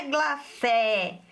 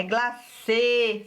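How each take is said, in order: First: "glacé" with an open "é", drawn out; open final vowel. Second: "glacê" with a closed "ê", drawn out; closed final vowel. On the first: Teacher shows pupils the wrong reading, open vowel. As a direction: say "glacé" slowly, opening the last vowel wide. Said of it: "o acento circunflexo, não é glacé". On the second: Teacher explains the circumflex sound to pupils, closed vowel. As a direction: say "glacê" slowly, last vowel held closed. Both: Shown as a demonstration.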